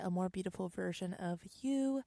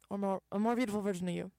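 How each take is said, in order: First: It is said at a normal speed. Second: It is said very fast, run together.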